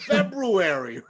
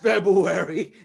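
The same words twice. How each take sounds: First: The first r sound is clearly pronounced. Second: The first r sound is left out. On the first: The speaker calls it right. "It's February" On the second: The speaker calls it wrong. "It's not February. ... does he put an R in there?"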